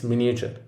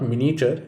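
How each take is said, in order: First: "miniature" as MIN-ee-uh-chur, softly; "miniature" with the third syllable kept; right miniature. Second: "miniature" as MIN-ee-chur; "miniature" with a syllable dropped; wrong miniature. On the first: Teacher showing students the right way, all syllables of "miniature". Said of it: "Don't leave out the third syllable". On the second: Teacher showing students the wrong way, "miniature" syncopated. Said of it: "It is not miniature". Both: Shown as a demonstration.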